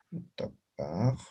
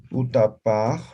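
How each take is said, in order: First: Utapaj said slowly and quietly, syllable by syllable; teacher slowly models utapaj for the class; slow spelled-out demo. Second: Said in the usual way. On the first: Shown as a demonstration. Teacher repeats the Aymara word slowly for students. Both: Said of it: "Dice, por ejemplo".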